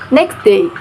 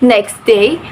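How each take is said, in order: First: The t sound in next is dropped. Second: The t sound in next is kept.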